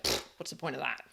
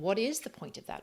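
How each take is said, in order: First: It is said dismissively, with a scoffing puff. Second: It is asked genuinely, with sincere curiosity.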